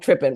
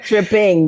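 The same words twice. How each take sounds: First: The final G sound is dropped. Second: The final G sound is pronounced. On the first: The speaker calls it right. "Without the G, without the G" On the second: The speaker calls it wrong. "It's not tripping"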